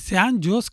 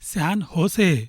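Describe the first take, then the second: First: The second word starts with a J sound. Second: The second word starts with an H sound. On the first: The speaker calls it wrong. "అది San జోస్ కాదండి" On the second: The speaker calls it right. "యుఎస్లో జేని హెచ్లా pronounce చేయాలండి"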